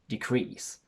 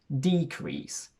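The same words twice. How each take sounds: First: The stress is on the second syllable. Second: The stress is on the first syllable. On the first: It is used as a verb. "Because it's a verb, the stress falls onto the second syllable, and we have a short sound for the first E" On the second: It is used as a noun. "we register a shift in stress to the front, which in turn causes the first E to elongate"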